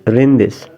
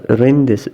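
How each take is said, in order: Both takes have the same delivery.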